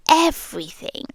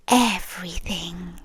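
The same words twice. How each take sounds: First: Said in the usual way. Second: A creepy hushed answer; ominous whisper. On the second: Acted. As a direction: breathe "Everything" like a secret. Ominous one-word reveal.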